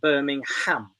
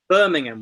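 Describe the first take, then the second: First: The final syllable is fully and clearly pronounced. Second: The final syllable is reduced and nearly disappears. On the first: The speaker calls it wrong. "not Birmingham" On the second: The speaker calls it right. "Birmingham we say in English"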